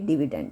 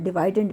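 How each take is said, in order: First: The second syllable has the vowel of 'it'. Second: The second syllable has the vowel of 'eye'. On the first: The speaker calls it right. "Exact pronunciation इसकी डिविडेंड है" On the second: The speaker calls it wrong. "बहुत से लोग इसको डिवाइडेंड भी pronounce करते हैं"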